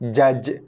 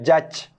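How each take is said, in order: First: The final consonant ends with a short bounce. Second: The final consonant ends with a breathy puff. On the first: The speaker calls it right. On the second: The speaker calls it wrong.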